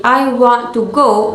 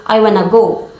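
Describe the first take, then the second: First: Said in the usual way. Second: "want to" merged into "wanna"; reduced "to". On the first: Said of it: "instead of saying". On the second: Shown as a demonstration. Teacher showing weak forms, "to" shrunk inside "I wanna go". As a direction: run "I wanna go" together, the "to" reduced. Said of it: "becomes reduced in the past speech".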